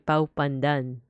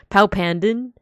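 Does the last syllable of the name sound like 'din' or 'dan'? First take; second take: dan; din. First: The name ends with a 'dan' sound. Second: The name ends with a 'din' sound. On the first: This is the intended form of the name. The speaker calls it right. "but it's supposed to be Pau Pandan" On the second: This is how someone else says the name. The speaker calls it wrong. "That's how Randon says it. He says Pau Pandin"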